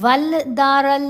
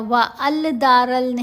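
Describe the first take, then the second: First: An l sound is heard before the d. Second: A separate 'al' is heard before the d. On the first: "वल दारल नहीं पढ़ा गया" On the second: "व अल दारल नहीं पढ़ा गया"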